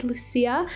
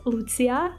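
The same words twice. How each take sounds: First: Lucia with a soft s, loo-SEE-ya; English-style Lucia, c as plain s; anglicized pronunciation. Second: Lucia said the Croatian way, loo-TSEE-ya; Croatian-style Lucia, c as ts; Croatian pronunciation. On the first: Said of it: "it's not Lucia". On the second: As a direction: say Lucia with a ts sound for the c. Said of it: "my real name is pronounced". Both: Shown as a demonstration.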